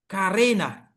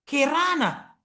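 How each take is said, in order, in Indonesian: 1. Diucapkan dengan logat Indonesia. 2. Diucapkan dengan logat Malaysia. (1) "kalau orang Indonesia mengatakan" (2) "kalau orang Malaysia mengatakan"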